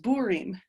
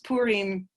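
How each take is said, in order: First: The word starts with a B sound. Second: The word starts with a P sound.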